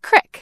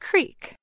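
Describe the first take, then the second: First: The vowel is a short i sound. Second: The vowel is a long ee sound. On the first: This is how some people in one mountain region say it. "with an I sound, as in crick, like in the word tip" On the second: This is how most people in the country say it. "with a long E sound, like in the word beat"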